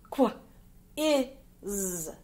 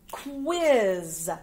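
First: "Qu-, is" as short kw, short i, held zzz; sounded out. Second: Said in the usual way. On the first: Shown as a demonstration. Teacher dictating star one, "Qu-, is" sound by sound. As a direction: say "Qu-, is" as three sounds with gaps.

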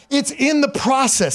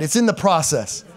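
First: "It's in the process" drawn out slowly with weight on "the"; slow stress on the. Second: Said in the usual way. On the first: Shown as a demonstration. Preacher modelling the line for the church, slow and stressed. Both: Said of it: "Say that".

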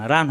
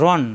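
First: "রান" with an open aa; wrong open vowel. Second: "রন" with a dark o-like vowel; rounded vowel. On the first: Teacher shows the misreading, "রান" with open aa. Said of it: "রান হবে না". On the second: Teacher shows correct reading, "রন" with o-like vowel. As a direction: round "রন", avoiding an aa. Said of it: "রান হবে না, রন". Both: Shown as a demonstration.

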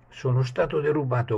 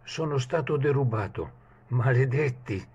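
First: A high, loud cry of being robbed; shouted. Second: Shouted curse. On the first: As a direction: shout it out in alarm. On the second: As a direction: yell it out in outrage. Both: Acted. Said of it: "gridò".

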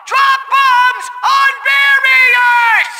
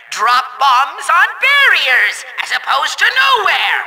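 First: High, furious yell, word by word; slow high-pitched villain tantrum; exasperated shout. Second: Exasperated but controlled instruction; pointed, condescending villain delivery; sarcastic patience. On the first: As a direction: bellow the order very slowly. Repeats instruction, out of patience. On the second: Repeating instruction to bungling player. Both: Acted.

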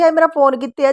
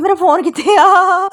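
First: Said in the usual way. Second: High, loud, slow alarmed cry; retelling a scare when she thought her phone was lost, crying out in alarm; panicked cry. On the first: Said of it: "ਇੱਦਾਂ ਹੀ ਕਹੂੰਗੀ". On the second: Retold or imitated. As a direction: gasp it out like your phone just vanished. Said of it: "ਮੈਂ ਡਰ ਗਈ".

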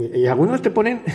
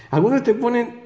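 First: Said in the usual way. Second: Breaks into a laugh on algunos te ponen; higher and laughing through the words. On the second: Real, not acted. Vlogger mocking cubing videos, laughing as he says it.

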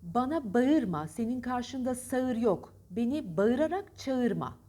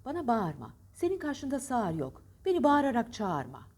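First: Slow, stilted "ba-ırma", every ı audible in bağırma; laboured two-vowel bağırma, sağır, çağırma; spelling pronunciation. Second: Bağırma as smooth "baarma"; flowing long a in sağır and çağırma; spoken form. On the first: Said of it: "çağırma değil". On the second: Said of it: "Hangisi güzel?". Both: Shown as a demonstration.

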